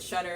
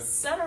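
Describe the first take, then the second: First: The word begins with a sh sound. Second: The word begins with an s sound. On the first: The speaker calls it wrong. "For anybody else who calls it Shutter" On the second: The speaker calls it right. "It's called Sut C S U T T E R. There's no H there"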